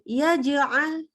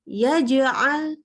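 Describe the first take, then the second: The two takes are said the same way.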